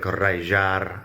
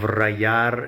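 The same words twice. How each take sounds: First: The middle consonant has an Argentinian regional sound. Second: The middle consonant sounds like an English y. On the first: "if you're Argentinian or something, it would be more like rayar" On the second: "pronounced like a Y sound in English"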